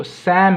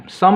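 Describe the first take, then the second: First: "सैम" with an open a vowel; correct vowel shown. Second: "सम" with a short uh vowel; wrong vowel shown. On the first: Teacher gives pupils the right reading, "सैम" with an open a vowel. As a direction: say "सैम" like the name Sam. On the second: Teacher warns pupils off this reading, "सम" with an uh vowel. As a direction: say "सम" like English sum. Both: Shown as a demonstration. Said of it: "सम नहीं पढ़ना है इसको".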